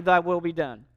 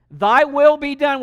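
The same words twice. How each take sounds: First: Said in the usual way. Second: Loud prayer. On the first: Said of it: "We prayed every Sunday morning". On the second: Retold or imitated. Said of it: "How about".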